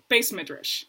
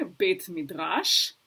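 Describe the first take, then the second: First: "Beis Midrash" with an S in Ashkenazi style; Ashkenazi pronunciation. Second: Said in the usual way. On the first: Retold or imitated. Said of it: "Shlomi says". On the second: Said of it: "I say".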